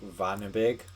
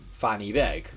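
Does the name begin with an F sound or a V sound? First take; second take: V sound; F sound. First: The name begins with a V sound. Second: The name begins with an F sound. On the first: The speaker calls it right. "it's actually like Vanabig" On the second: The speaker calls it wrong. "you're saying this all wrong"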